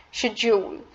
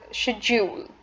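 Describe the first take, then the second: First: It is pronounced in a British English way. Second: The same.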